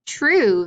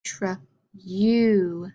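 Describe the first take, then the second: First: TRUE said whole and louder; blended word. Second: TR, pause, long U; segmented sounds. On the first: Teacher giving pupils the answer, TRUE blended and louder. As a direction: blend tr and oo into one firm TRUE. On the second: Teacher swapping the last sound for pupils, TR-U segmented. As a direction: say TR and U as separate drawn sounds. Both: Shown as a demonstration. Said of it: "change the E sound to a U sound".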